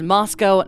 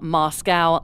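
First: It is not said like the Russian city. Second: It is said like the Russian city. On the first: The speaker calls it right. "it is pronounced Moscow" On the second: The speaker calls it wrong. "not Moscow, like in Russia"

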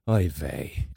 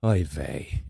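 First: It sounds tired and sleepy. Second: It sounds tired and sleepy.

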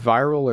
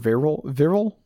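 First: It is pronounced like the word viral. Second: It is pronounced like the word virile. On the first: "it's either Viral" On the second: "like virility"

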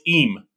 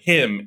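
First: The word begins without any h sound. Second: The word begins with an audible h sound. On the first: "It was always im. the H was always silent" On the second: "never pronounced the word him, H-I-M"

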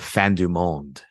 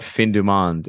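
First: The name is said with a French-style pronunciation. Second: The name is said with an English-style pronunciation. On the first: The speaker has refined taste. The speaker calls it right. "instead of Fin du Monde" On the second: The speaker lacks refined taste. The speaker calls it wrong. "you call it Fin du Monde"

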